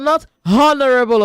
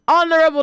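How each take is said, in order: First: The word begins with an audible H sound. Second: The word begins with a vowel, no H. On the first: The speaker calls it wrong. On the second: The speaker calls it right. "Don't pronounce the H in the word honorable"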